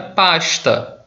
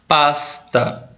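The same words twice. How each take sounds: First: The s before t sounds like sh. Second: The s before t sounds like plain s, paulista-style.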